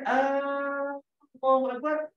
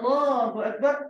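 First: The opening vowel of Allah is drawn out long. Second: The opening vowel of Allah is short. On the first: It asks whether God is the greatest. The speaker calls it wrong. "adakah Allah Maha Besar? ... jadi pertanyaan" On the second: It states that God is the greatest. The speaker calls it right. "Allah Maha Besar. Statement"

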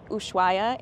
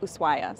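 First: An h sound is pronounced in the word. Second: No h sound is pronounced in the word. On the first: The speaker calls it wrong. "I think I pronounced it Ushuaia in previous videos" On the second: The speaker calls it right. "the H is silent and it's more like Ushuaia"

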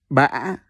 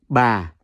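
First: The pitch rises with a break in the voice. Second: The pitch starts low and falls gently. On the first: "With the funny sideway accent ... So you pronounce it as Ba" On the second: "the second one is Yau Huyền. See the second Huyền. So that's Ba"

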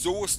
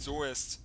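First: The vowel is a single long o sound. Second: The vowel letters are sounded out letter by letter. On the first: The speaker calls it right. "Das heißt Soest" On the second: The speaker calls it wrong. "Nicht Soest. Ja, es wird halt so geschrieben"

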